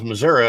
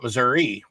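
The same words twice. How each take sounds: First: The name ends with an 'ah' sound. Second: The name ends with an 'ee' sound. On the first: The speaker calls it right. "that's actually the correct way to say it. You put an I on something that sounds like an ah" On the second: The speaker calls it wrong. "which is the way I grew up saying it"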